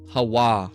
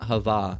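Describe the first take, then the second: First: The middle consonant is a w sound. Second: The middle consonant is a v sound. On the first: The speaker calls it right. "originally a w sound" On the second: The speaker calls it wrong. "not hava"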